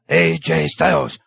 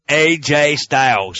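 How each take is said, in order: First: It is said in a Japanese-accented English voice. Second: It is said in a Southern US accent. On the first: "And that's all me. I know that was really bad" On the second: "But I can't do the southern accent"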